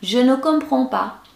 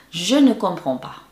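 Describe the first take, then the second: First: High-pitched, helpless plea; put-on pitiful helplessness; pleading. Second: Said in the usual way. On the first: Shown as a demonstration. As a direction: say it with a pitiful begging look. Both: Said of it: "Dengan muka memelas lagi".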